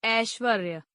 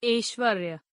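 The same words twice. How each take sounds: First: Said in the usual way. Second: ऐश्वर्य with "e" for "ai"; mispronounced. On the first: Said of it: "शुद्ध". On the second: Shown as a demonstration. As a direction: say ऐश्वर्य as "eshvarya", closed first vowel. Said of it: "अशुद्ध".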